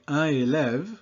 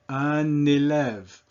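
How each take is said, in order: First: The two words are said without linking. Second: The n sound links into the next word. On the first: The speaker calls it wrong. "I don't say un élève" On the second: The speaker calls it right. "that causes the final consonant before that to be pronounced"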